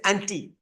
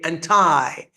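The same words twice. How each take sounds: First: It is said the Indian way. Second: It is said the American way.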